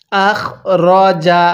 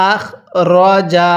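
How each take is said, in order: Both takes have the same delivery.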